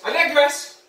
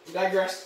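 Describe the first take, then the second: First: Said in the usual way. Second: Muttered "I digress" under the breath, softer; quiet aside. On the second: Shown as a demonstration. Comedian catching himself mid-rant, quiet aside. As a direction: drop the voice on "I digress".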